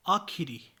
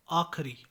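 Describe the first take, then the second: First: Said in the usual way. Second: आखिरी without the middle i; mispronunciation. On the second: Shown as a demonstration. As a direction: squeeze आखिरी to aakh-ri. (आखिरी को आखरी बोलें) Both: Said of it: "आखिरी नहीं".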